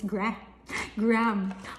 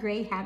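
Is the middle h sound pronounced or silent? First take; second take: silent; pronounced. First: The h in the middle is silent. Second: The h in the middle is pronounced. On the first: The speaker calls it right. "Wala siyang H" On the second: The speaker calls it wrong. "it's not Graham"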